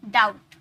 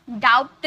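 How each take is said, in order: First: डाउट said "dowt", plain t ending; silent b. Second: डाउट said "daupt", with b heard as p; sounded b. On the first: Teacher giving students the model, डाउट as "dowt". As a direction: end डाउट on t with no b or p. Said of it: "डाउट नहीं". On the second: Teacher showing what not to say, डाउट as "daupt". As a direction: put a wrong lip stop before the t in डाउट. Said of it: "नहीं". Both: Shown as a demonstration.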